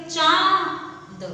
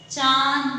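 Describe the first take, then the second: First: चांद stretched slowly with nasal आं; drawn-out word. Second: Said in the usual way. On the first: Shown as a demonstration. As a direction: draw out चांद for students. (चांद को धीरे खींचकर) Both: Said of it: "इसको क्या बोलेंगे".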